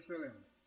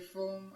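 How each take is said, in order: First: The word is said as two syllables. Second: The word is said as one syllable. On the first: This is how the speaker says it. "I say film" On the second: This is how the other person says it. "You say film"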